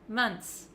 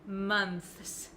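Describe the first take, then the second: First: It ends with a plain t then s. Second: It ends with a clear th then s. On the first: "What I do say is months" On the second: "I do not say months. Never"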